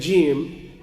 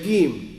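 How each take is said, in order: First: The letter name is said the standard way. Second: The letter name is said the Egyptian way. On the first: The speaker calls it right. "instead of saying jim" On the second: The speaker calls it wrong. "in the Egyptian dialect, instead of saying jim, they'll say gim"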